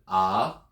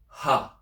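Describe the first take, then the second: First: The vowel starts plainly with no breath. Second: The vowel starts with a breathy h. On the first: "this is unaspirated, which means you pronounce it ah" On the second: "which means you pronounce it aspirated, which is ha"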